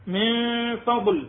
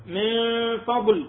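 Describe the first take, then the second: No difference in how they are said.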